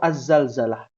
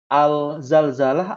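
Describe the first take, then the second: First: The l blends into the z: az. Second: The l is kept before the z: al. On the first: The speaker calls it right. "Maka az-zalzalah yang betul" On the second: The speaker calls it wrong. "Biasanya orang kita"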